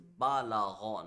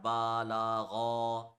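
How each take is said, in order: First: The vowels are kept short. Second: The vowels are drawn out long. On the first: The speaker calls it right. "It is" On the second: The speaker calls it wrong.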